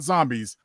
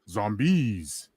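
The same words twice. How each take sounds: First: The stress is on the first syllable. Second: The stress is on the last syllable. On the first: The speaker calls it wrong. "not zombies" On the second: The speaker calls it right. "you hit the final syllable"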